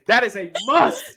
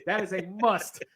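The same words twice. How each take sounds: First: Slow, with "must" louder and stretched; emphatic insistence. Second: Said in the usual way. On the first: Real, not acted. Host insisting it goes in the intro, emphatic stress on "must". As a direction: lean hard on "must", drawing it out.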